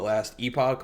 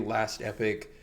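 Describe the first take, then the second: First: The last word is said like 'ee-pock'. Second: The last word is said like 'epic'. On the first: "You'll hear people call it Last Epoch" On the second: "it's apparently supposed to be read as Epic"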